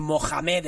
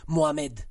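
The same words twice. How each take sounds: First: "Mohamed" with a hard j for the h; Spanish-style Mohamed. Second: "Mohamed" with the h left silent; French-style silent H. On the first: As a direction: rasp the middle of "Mohamed" like a Spanish jota. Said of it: "como aquí le dicen Mohamed". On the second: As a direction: glide through "Mohamed" as Mo-amed. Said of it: "en Francia se dice". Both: Shown as a demonstration.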